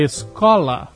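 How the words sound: It is said with a Curitiba accent.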